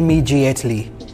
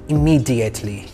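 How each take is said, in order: First: The middle consonant is a j sound. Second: The middle consonant is a d sound. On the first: The speaker calls it wrong. "Do not pronounce with j. Do not say immediately" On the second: The speaker calls it right. "Pronounce with d sound"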